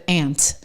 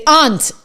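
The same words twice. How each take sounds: First: Aunt said as "ant", flat a like in cat; standard aunt. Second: Aunt said as "ahnt", broad open a like father; New Hampshire aunt. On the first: Contrasting the usual aunt, said "ant". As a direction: say aunt plainly, rhyming with can't. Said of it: "instead of aunt". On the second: Explaining her New Hampshire accent, aunt said "ahnt". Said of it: "We say aunt". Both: Shown as a demonstration.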